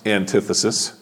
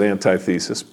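First: It is said as one word, an-TITH-esis. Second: It is said as anti plus thesis. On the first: "Usually, the word is pronounced antithesis" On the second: "Some people do pronounce it antithesis, but I keep saying it that way because I want us to understand it is the opposite"

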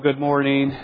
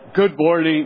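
First: It is said at a normal speaking volume. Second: It is said loudly, as a yell.

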